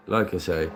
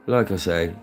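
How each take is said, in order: Both takes have the same delivery.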